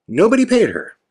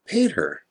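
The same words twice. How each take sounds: First: Nobody pitched high, then falling; high-pitched stress on Nobody; emphatic repeat. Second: Soft, understated punchline; hushed, matter-of-fact statement; quietly dropped. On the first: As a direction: hit Nobody high to drive the point home. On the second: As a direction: let it drop away quietly. First take, dropped for effect. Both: Real, not acted.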